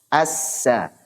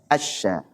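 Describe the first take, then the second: First: The s is a sharp, thin hiss. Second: The s spreads into a sh-like sound. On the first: The speaker calls it right. "Kalau sin itu tajam dan tipis ya. Kayak jarum" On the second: The speaker calls it wrong. "Sebagian ada yang baca asya"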